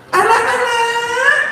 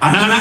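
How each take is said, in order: First: It is said in a childlike voice. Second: It is said in a plain adult voice. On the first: The speaker calls it right. "Suaranya jadi anak" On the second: The speaker calls it wrong. "Gak ada guru T K misalnya begini"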